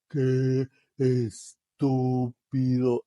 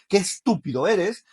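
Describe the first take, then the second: First: It is said slowly. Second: It is said fast and emphatically.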